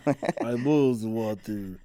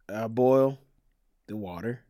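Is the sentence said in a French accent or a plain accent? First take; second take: French; plain. First: It is said in a put-on French-sounding accent. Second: It is said in the speaker's ordinary accent.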